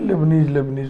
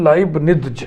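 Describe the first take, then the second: First: The first syllable has the vowel of 'lay'. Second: The first syllable has the vowel of 'lie'. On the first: "इसलिए सुविधा के लिए लेबनीज लेबनीज लोग बोलते हैं।" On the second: "सही pronunciation है लाइबनिज"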